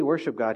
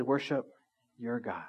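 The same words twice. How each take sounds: First: Said in the usual way. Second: "your" weighted and falling, "Worship your God" trailing soft; stress on YOUR. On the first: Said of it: "He didn't say". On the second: Shown as a demonstration. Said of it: "He said".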